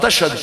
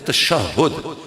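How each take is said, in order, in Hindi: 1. यह शब्द दो अक्षरों में बोला जाता है। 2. यह शब्द तीन अक्षरों में बोला जाता है।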